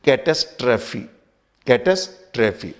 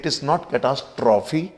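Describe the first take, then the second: First: "catastrophe" as kuh-TAS-truh-fee, stress on the second syllable; correct pronunciation. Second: "catastrophe" said as cat-a-STROFF-ee, a spelling pronunciation; wrong take of "catastrophe", cat-as-troffy; common mispronunciation. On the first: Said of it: "this is". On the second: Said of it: "अधिकांश लोग इसको कैटास्ट्रॉफी बोलते हैं". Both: Shown as a demonstration.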